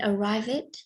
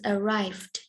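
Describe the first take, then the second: First: The ending is an extra 'id' syllable. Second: The ending is a plain 'd' sound. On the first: The speaker calls it wrong. "So you mean arrive it?" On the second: The speaker calls it right. "the ending sound is the, not it"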